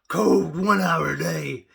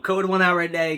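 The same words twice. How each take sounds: First: It is said in a gravelly wrestler voice. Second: It is said in his normal voice.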